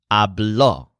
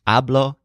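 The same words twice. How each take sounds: First: Habló with the final syllable, bló, stressed; stress on last syllable. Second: Hablo with the first syllable, Ha, stressed. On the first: Teacher giving the word for he spoke, final stress on habló. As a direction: land on the long final o of habló. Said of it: "think of the lizard blowing". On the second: Teacher showing how the present tense changes, first-syllable stress on Hablo. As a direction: stress the opening vowel of Hablo, letting blo fall away. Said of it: "The stressed syllable of most of these". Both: Shown as a demonstration.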